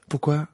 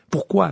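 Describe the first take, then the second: First: Curious. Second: Sharp, louder impatient question; an impatient Pourquoi? pushed out louder. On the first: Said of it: "avec curiosité". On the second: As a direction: demand it, fed up with waiting. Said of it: "d'un ton impatient". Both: A narrator's reading.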